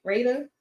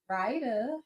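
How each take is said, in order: First: Ryda said as RAY-da; "Ryda" with an A sound, like raid; second try at the name. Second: Ryda said as RYE-da; "Ryda" with a long I, like ride; first try at the name. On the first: Retrying the viewer's name, "Ryda" as RAY-da. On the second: Testing the viewer's name, "Ryda" as RYE-da. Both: Shown as a demonstration. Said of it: "Did I say it right?".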